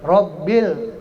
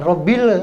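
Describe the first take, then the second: First: No extra e-like vowel sound is added. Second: An extra e-like vowel sound is added. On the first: The speaker calls it right. "tidak boleh ada ada e-nya" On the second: The speaker calls it wrong. "jangan Rabbil"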